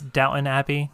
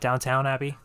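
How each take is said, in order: First: The first word ends in a short 'ton'. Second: The first word ends in 'town'. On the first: The speaker calls it right. "It's Downton Abbey" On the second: The speaker calls it wrong. "not Downtown Abbey"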